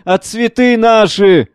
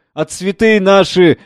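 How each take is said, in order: First: Higher, slow, wailing grief; louder weeping lament. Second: Slow, mournful wail over the flowers; weeping lament. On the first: Old gardener weeping over his flowers, wailing louder. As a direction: let the grief break out more. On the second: Old gardener weeping over his flowers, slow lament. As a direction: grieve slowly. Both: Acted. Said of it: "плачет".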